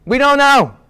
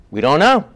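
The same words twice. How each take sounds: First: Higher pitch, KNOW falling at the end; high-pitched reply with a falling KNOW; insistent answer. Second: KNOW rising like a question; hesitant reply, lifting up on "know"; unsure, with a questioning lift on KNOW; tentative answer. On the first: Same answer acted more firmly. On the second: Answer acted in two ways. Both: Acted.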